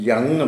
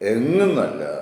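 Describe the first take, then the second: First: The word begins with a y sound. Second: The word begins with a plain vowel sound. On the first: The speaker calls it right. "യങ് എന്നാണ്" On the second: The speaker calls it wrong.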